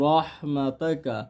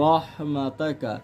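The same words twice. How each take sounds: The two takes are said the same way.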